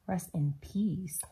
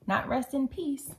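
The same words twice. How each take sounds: First: "peace" drawn out low like "peas"; slow, lingering "peace" with a buzzing end; punning "peace" as "peas". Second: "peace" ending in a crisp s, pitched up; "peace" said short, as the rejected word; plain "peace". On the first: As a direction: stretch "peace" slowly into "peeeez". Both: Shown as a demonstration.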